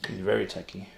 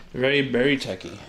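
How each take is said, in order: First: Said in the usual way. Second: "Very, very" hit louder and punched; stress on very. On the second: Real, not acted. Insisting to chat that Lee is very techie. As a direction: lean hard on both "Very, very".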